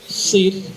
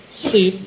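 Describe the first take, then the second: Both takes have the same delivery.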